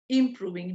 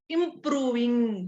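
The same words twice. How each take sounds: First: The syllables are said lightly, without extra stress. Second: Every syllable is stressed heavily. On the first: The speaker calls it right. "You can be clear like this also" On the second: The speaker calls it wrong. "Don't say improving. ... don't stress too much"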